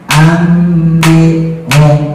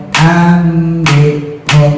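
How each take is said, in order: No difference in how they are said.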